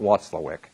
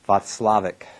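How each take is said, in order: First: The name begins with a W sound. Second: The name begins with a V sound. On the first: The speaker calls it wrong. "not Watzlawick" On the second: The speaker calls it right. "It always sounds better if you pronounce the W like a V"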